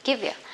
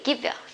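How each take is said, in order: Both takes have the same delivery.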